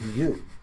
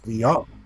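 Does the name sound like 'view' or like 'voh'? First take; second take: view; voh. First: The name sounds like the English word view. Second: The name sounds like voh, ending in oh. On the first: The speaker calls it wrong. "It's not" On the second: The speaker calls it right. "it's V O"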